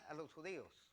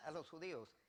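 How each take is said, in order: Both takes have the same delivery.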